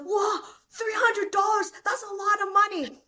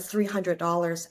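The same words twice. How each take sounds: First: Excited dad. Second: Said in the usual way. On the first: Retold or imitated. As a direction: act out a giddy dad shouting with joy. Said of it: "He's like". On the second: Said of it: "I said".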